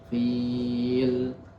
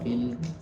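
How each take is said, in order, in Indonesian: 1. Ditahan sekitar empat harakat. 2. Ditahan sekitar dua harakat. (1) "kita baca empat" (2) "Kalau dua, dua terus"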